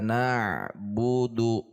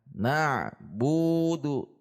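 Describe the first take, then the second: First: All syllables are level, with no pressed syllable. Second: The syllable bu is pressed, rising, and lengthened. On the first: The speaker calls it right. "harusnya datar" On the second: The speaker calls it wrong. "bunya kita tekan"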